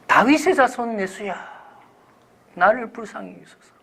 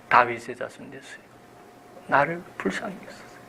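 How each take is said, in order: First: Calling out. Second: Soft, hushed plea for mercy; earnest plea. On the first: Blind beggar calls to Jesus for mercy, calling out. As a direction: cry out high to someone passing by. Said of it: "그래서 그가 불렀어요". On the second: Blind beggar calls the Lord again, earnest hushed plea. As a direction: plead softly with all your heart. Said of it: "온 정성을 다해서". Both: Acted.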